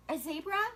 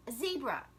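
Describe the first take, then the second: First: "zebra" rising like a doubtful question; questioning rise. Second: Said in the usual way. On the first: Shown as a demonstration. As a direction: ask "A zebra?" with the tune going up on zebra.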